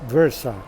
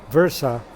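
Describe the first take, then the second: The two takes are said the same way.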